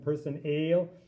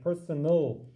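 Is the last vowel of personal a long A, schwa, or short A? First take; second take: long A; schwa. First: The last syllable has a long A vowel. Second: The last syllable has a reduced schwa vowel. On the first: The speaker calls it wrong. "it doesn't sound like a long person ale" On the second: The speaker calls it right. "it makes a kind of in between sound like personal. That's the schwa sound"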